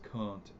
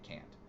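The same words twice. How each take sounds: First: The name is said the formal, strict way. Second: The name is said the simpler, easier way. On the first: This is the proper pronunciation of the name. "I know it's Kant, but I don't like pronouncing it that way" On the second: This is the casual, unpretentious pronunciation. "I like pronouncing it Kant. It just sounds easier to pronounce"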